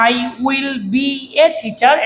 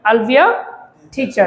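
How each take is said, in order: First: I will is said as two full words. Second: I will is contracted into one syllable. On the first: "আমরা এটাকে বলি আই উইল বি এ teacher" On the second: "এটাকে না বলে আমরা বলতে পারি আউল be আ teacher"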